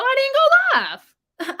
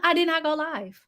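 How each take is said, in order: First: Mock sing-song squeal, much higher and louder; playful squeal. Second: Said in the usual way. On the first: Real, not acted. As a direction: squeal it out high and slow, teasing. Playful about skipping livestream.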